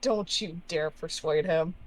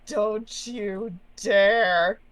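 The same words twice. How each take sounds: First: Softer, controlled threat; quiet, firm objection; restrained warning. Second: Very slow, stretched threat; long, emphatic DARE; drawn-out warning. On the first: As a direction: warn them off under your breath. Player repeats warning, restrained. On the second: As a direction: draw out each word to warn them off. Player warns off the entity. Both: Acted.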